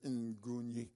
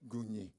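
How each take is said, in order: First: The name starts with an added N sound. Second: The name starts with a plain G sound. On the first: The speaker calls it wrong. "I was mispronouncing their name" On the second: The speaker calls it right. "no, Gunyi"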